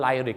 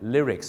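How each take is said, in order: First: It is said the common Thai-style way. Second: It is said the standard English way. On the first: The speaker calls it wrong. "ก่อนหน้านี้พี่น้องชาวไทยออกเสียงว่า" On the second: The speaker calls it right. "เนื้อร้องต้องเป็น"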